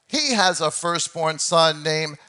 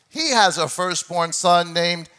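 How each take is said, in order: The two takes are said the same way.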